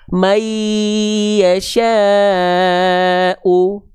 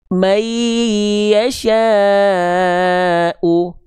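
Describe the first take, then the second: No difference in how they are said.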